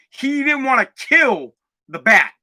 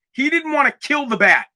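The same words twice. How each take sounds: First: "kill" is the stressed word, said slowly. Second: "didn't" is the stressed word and falls. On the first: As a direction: lean on "kill" and let "didn't" stay light. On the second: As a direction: hit "didn't" and let "kill" stay light. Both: Shown as a demonstration.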